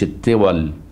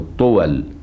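First: The first vowel is i, as in kasra. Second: The first vowel is u, as in damma. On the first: The speaker calls it wrong. "ما تقولش الطول" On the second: The speaker calls it right. "تقول الطول"

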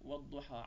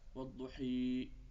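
First: The final vowel is a plain open 'a' sound. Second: The final vowel is turned into an 'ee' sound. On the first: "مثل كلمة والضحى على سبيل المثال" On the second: "الذين يميلون إمالة تامة يحولونها ياء"

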